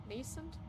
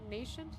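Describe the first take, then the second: First: "Nascent" said as NAY-sunt, questioning; quieter, unsure "Nascent" with an s sound; s pronunciation. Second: "nascent" said as NAY-shunt, questioning; unsure "nascent", like nation with a t; sh pronunciation. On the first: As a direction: try "Nascent" with a clean s in the middle. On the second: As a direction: try "nascent" with a sh sound in the middle. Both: Shown as a demonstration. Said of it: "is it nascent or nation".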